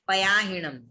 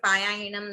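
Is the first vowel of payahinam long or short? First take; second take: short; long. First: The first vowel is kept short. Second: The first vowel is drawn out long. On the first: The speaker calls it right. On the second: The speaker calls it wrong.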